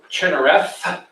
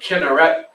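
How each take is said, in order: First: The name ends with a 'th' sound. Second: The name ends with a 't' sound. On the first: "Pronounced like a T H" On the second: "pronounced like a T"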